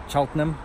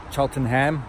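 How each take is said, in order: First: Cheltenham with a weak "num" at the end; reduced ending. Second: Cheltenham with a full "ham" at the end; spelling pronunciation. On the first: Naming the town his son moves to, Cheltenham with reduced "-nəm". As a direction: say Cheltenham as "CHELT-num", last vowel swallowed. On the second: Trying out the town his son moves to, Cheltenham with full "ham". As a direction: say Cheltenham as "Chelten-HAM", every syllable sounded. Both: Shown as a demonstration. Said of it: "a place called Cheltenham".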